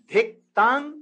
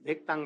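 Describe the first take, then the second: First: Drum syllables, loud. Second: Drum syllables, soft. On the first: Preacher showing the mridanga beat out loud. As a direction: beat out the mridanga strokes loudly and higher. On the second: Preacher repeating the mridanga beat quietly. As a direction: tap the drum sound out gently. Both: Shown as a demonstration. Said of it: "dhik tang like this".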